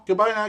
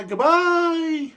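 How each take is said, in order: First: Said in the usual way. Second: Much higher and louder sing-song goodbye; cheery, hammed-up farewell to chat; big sign-off. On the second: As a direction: belt out the farewell like a cartoon host.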